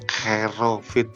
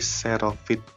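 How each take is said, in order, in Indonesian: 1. Kata ini diawali dengan bunyi K. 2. Kata ini diawali dengan bunyi S. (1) "bukan Kerovit" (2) "tapi Serovit ya"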